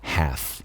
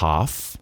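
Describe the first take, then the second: First: American accent, front vowel toward E, no L. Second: British accent, open back vowel, no L sound. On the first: "o norte-americano, fala mais half, mais pro E" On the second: "O britânico fala mais half, sem falar o L"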